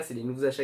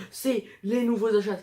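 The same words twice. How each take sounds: First: Said in the usual way. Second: Higher-pitched imitation of a big reveal; retold excitement, pitched up; mock excited announcement. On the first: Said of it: "Ce qui est vraiment le cas". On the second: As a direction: announce it brightly, imitating your earlier self. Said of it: "je les ai sortis du sac en mode".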